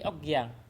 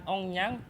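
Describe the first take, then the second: First: The middle consonant is a k sound. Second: The middle consonant is a nasal ng sound. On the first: The speaker calls it right. "tapi Okyang" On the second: The speaker calls it wrong. "bukan Ongyang"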